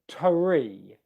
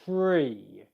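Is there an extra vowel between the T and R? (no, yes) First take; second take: yes; no. First: A short vowel separates the T and R. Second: The T and R blend with no vowel. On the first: The speaker calls it wrong. "This is what I'm not going to do first of all. where it sounds like you get a, a schwa sound in there" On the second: The speaker calls it right. "The airflow resumes as I'm making the R sound"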